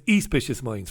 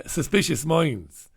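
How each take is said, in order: First: "Espicious" with an ee sound instead of "Sus"; "Espicious" said as ee-SPIH-shus; mispronounced title. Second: Said in the usual way. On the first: Retold or imitated. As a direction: say "Espicious Minds", dropping the s. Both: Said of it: "But doesn't say [name]".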